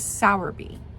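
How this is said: It is said with an American pronunciation. "the American pronunciation was"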